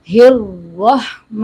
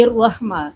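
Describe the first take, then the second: First: "ہر رحمہ" with clear h and held heavy r; Ha joined to Ra. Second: "الرحمہ" begun on a bare vowel, no h; hamza for Ha. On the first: Teacher models the link, heavy "ہر رحمہ". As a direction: slowly join h into a thick r in "رحمہ". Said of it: "ہا کو را سے ملانا ہے". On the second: Teacher shows common error, h missing before "الرحمہ". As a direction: start "الرحمہ" quickly with a glottal onset. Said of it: "یعنی حمزہ پڑھ جاتے ہیں". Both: Shown as a demonstration.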